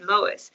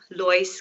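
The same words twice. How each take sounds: First: The name has an English pronunciation. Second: The name has an Afrikaans pronunciation. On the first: This is the name used at school and work. "my teachers would call me Lois" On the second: This is the home name used by family. "my family called me Lois growing up"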